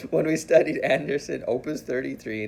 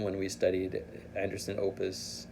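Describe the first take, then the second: First: High, still laughing through the words. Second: Said in the usual way. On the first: Real, not acted. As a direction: giggle through the restart at herself. Restarts sentence after laughing.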